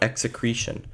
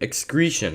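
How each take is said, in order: First: An extra vowel comes after the first syllable. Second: No extra vowel comes after the first syllable. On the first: The speaker calls it wrong. "not execretion" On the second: The speaker calls it right.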